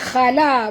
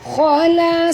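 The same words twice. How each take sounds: First: The KH sound is light and thin. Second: The KH sound is heavy and full. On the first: The speaker calls it wrong. "jangan baca khala" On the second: The speaker calls it right. "Kha di sini tebal"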